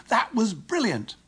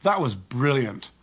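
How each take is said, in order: First: High, drawn-out delight; thrilled, soaring exclamation; excited praise. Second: Slow, falling sarcastic quip; annoyed sarcasm. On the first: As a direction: cheer it like after a fantastic goal. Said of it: "say with excitement". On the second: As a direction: stretch it out with dry annoyance. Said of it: "with a tonality that communicates annoyance". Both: Shown as a demonstration.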